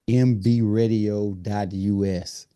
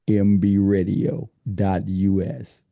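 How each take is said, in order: First: It is said in an ordinary conversational voice. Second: It is said in a put-on announcer voice.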